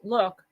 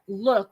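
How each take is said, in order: First: The word is said plainly without extra emphasis. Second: The word is said with strong, weighty emphasis. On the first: The ordinary act of looking. "quote unquote look" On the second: A deeper, inward kind of seeing. "look with a capital L. That's how it's pronounced"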